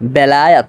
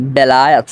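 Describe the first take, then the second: No difference in how they are said.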